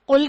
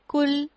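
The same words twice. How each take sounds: First: It starts with a deep throat q sound. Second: It starts with a plain k sound. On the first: It means say. The speaker calls it right. "कुल की जगह" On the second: It means eat. The speaker calls it wrong. "कह दिया कुल"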